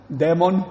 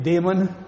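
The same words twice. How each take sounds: First: "demon" with a short open e, as in "den"; Romanian-style pronunciation. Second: Said in the usual way. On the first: Shown as a demonstration. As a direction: say "demon" as DEH-mon. Repeats word in Romanian-style pronunciation.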